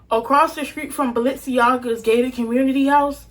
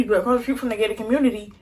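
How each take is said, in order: First: More measured, spaced-out retake; slow down so each word is clear; slower. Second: Hurried, run-together delivery; rushed. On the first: Storyteller re-explaining where the church was, slower. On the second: Storyteller racing through the neighborhood layout, rushed. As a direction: rattle it off quickly. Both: Real, not acted. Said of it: "Let me talk slower".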